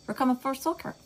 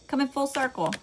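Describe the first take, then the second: First: "full circle" garbled, the sounds sliding into "full soaker"; tongue-tied slip. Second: "full circle" said again properly, both words fully formed; higher-pitched careful repair of "full circle"; corrected retake. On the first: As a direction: stumble over "full circle" in a higher Southern slur. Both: Real, not acted. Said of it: "I can't even talk".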